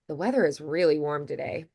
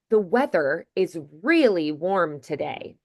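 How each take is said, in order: First: The words run together quickly and reduced. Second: Every word is said slowly and clearly. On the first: It is casual talk with a friend or neighbor. "the others, we just kind of move through quickly" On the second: It is said for listeners who must understand every word. "If I was, say, narrating an audiobook, maybe I would, because I want to be sure people can understand it"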